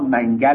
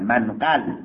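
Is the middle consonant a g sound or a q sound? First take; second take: g sound; q sound. First: The middle consonant is a plain g sound. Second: The middle consonant is a deep q sound. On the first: The speaker calls it wrong. "ایشون قاف رو نمیتونست تلفظ ... آقا منگل نه" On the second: The speaker calls it right.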